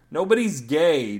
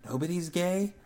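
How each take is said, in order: First: Loud, fed-up yell, slowed. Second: Small, soft, puzzled mousy question; timid squeak of a doubt. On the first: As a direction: shout it to end the talk. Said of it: "Daryl yelled". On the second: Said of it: "Michelle's mousy voice say". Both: A narrator's reading.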